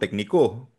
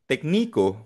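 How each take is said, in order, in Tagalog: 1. Nasa ikatlong pantig ang diin. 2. Nasa ikalawang pantig ang diin. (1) "Pag nilagay mo sa O" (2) "pag nilagay mo sa I"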